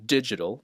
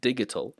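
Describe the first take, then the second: First: The middle consonant is a j sound. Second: The middle consonant is a hard g. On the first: The speaker calls it right. "but it's oxygen, hydrogen, digital" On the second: The speaker calls it wrong. "some might uh, pronounce these words with a G sound"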